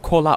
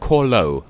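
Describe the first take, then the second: First: The name ends in an 'er' sound. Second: The name ends in an 'oh' sound. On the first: The speaker calls it wrong. "I keep saying it wrong" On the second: The speaker calls it right. "It's Corlo"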